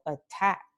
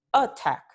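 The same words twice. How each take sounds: First: "attack" stressed on the second syllable, a-TACK; light first vowel, weight on "-tack" in "attack"; acento final. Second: "attack" wrongly stressed on the first syllable, AT-tack; acento inicial. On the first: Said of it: "the second vowel". ("attack" con el acento en la segunda vocal) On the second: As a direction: punch the first vowel of "attack". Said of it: "We don't say attack". ("attack" con el acento en la primera vocal) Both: Shown as a demonstration.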